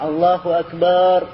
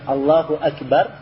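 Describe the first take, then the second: First: The last vowel of Akbar is drawn out long. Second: The last vowel of Akbar is short. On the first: The speaker calls it wrong. "tapi banyak dikasih panjang" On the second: The speaker calls it right. "Allahu Akbar harusnya"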